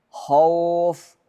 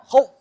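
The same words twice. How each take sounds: First: The glide is said softly, without pressure. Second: The glide is said with a pressed, tense push. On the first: The speaker calls it right. "pengucapan huruf dengan lunak" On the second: The speaker calls it wrong. "tidak boleh tertekan"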